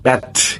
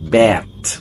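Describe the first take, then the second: First: The final T is released with air. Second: The final T is held without air. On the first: The speaker calls it wrong. "You can't say ব্যাট" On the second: The speaker calls it right. "You say ব্যাট"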